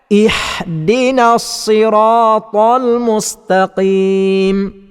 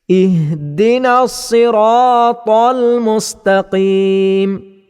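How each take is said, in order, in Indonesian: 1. Huruf h itu bunyi kasar dari tengah tenggorokan. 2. Huruf h itu bunyi lembut berdesah dari pangkal tenggorokan. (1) "bacaan yang salah ... huruf ha kepada huruf ha yang dibaca dengan pertengahan halkum" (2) "bacaan yang betulnya ialah ... dibaca dengan pangkal halkum"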